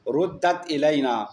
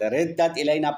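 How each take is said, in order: First: The first vowel is an u sound. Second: The first vowel is an i sound. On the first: This is the reading of most grammarians. "इसका मजहूल जुमहूर रुद्द पढ़ते हैं" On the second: This is the reading reported from one transmitter. "कसरे के साथ"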